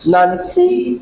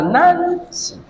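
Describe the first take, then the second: First: "Nancy" with the "cy" high and long; stress on second syllable. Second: "Nancy" with the first syllable high and drawn out; stress on first syllable. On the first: Teacher showing a class moved stress, second syllable of "Nancy" stressed. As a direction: shift the weight onto the end of "Nancy". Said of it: "make this one my stress". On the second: Teacher showing a class word stress, first syllable of "Nancy" stressed. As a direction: punch the "Nan" in "Nancy". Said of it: "make my stress here". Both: Shown as a demonstration.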